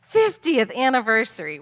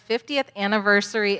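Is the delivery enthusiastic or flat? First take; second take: enthusiastic; flat. First: It is said in a lively, excited tone. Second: It is said in a flat, plain tone. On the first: The speaker calls it right. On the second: The speaker calls it wrong.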